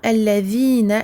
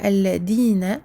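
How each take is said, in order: First: The middle consonant is a soft 'th' sound. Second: The middle consonant is a hard 'd' sound. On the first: The speaker calls it right. "attention à bien dire alladhina" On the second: The speaker calls it wrong. "et non pas alladina avec un del"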